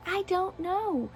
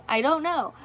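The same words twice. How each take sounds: First: "I don't know" said higher, softer and slow; a soft, slow, baffled "I don't know"; drawn-out shrug. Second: Said in the usual way. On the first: Real, not acted. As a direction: let "I don't know" trail off, helplessly.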